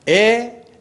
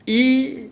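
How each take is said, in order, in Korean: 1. 이 모음은 평범한 e 소리입니다. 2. 이 모음은 평범한 i 소리입니다. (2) "이 이렇게 다 세 가지로 발음할 수 있어요"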